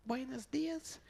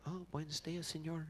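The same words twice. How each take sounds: First: Falsetto, far above normal speech; light, comic falsetto hello; odd high greeting voice. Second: Said in the usual way. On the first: Retold or imitated. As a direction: imitate a friend's helplessly high greeting. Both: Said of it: "Why do I do that with my voice".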